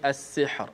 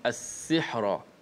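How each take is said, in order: First: The word stops on a bare thin r. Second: The final r carries a vowel after it.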